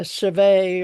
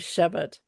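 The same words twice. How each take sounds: First: It is pronounced the French way. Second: It is pronounced the English way.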